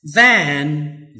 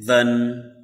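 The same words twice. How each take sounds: First: Than with a full open a; strong form of than. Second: Than reduced to a short then sound; quick weak than; weak form of than. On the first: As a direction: say than fully. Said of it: "for the strong". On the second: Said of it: "for the weak". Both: Shown as a demonstration.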